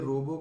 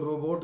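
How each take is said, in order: First: The final t sound is dropped entirely. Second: The final t sound is clearly pronounced. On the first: The speaker calls it wrong. "इसमें टी silent है" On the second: The speaker calls it right. "Independently जब भी बोलेंगे तो रोबोट ही कहेंगे"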